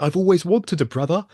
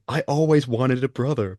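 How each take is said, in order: First: It is said in a put-on British accent. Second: It is said in the speaker's plain voice.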